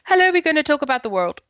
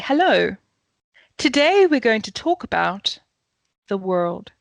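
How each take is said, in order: First: It is said in one breath without pauses. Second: It is said with two pauses inside.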